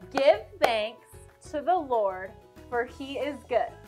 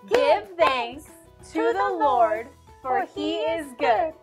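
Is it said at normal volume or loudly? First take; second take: normal volume; loudly. First: It is said at a normal volume. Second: It is said very loudly.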